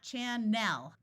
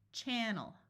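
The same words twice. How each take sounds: First: The last syllable has a clear short E vowel. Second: The last syllable has a reduced schwa vowel. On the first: The speaker calls it wrong. "it's not channel with a clear, short E sound" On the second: The speaker calls it right. "It's channel"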